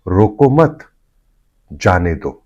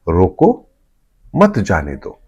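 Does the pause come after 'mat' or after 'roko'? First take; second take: after mat; after roko. First: There is a pause right after 'mat'. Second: There is a pause right after 'roko'. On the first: It is an order not to stop someone but let them go. "यही comma यदि हटा दिया जाए" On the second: It is an order to stop someone. "रोको के बाद में एक कॉमा लगा हुआ है"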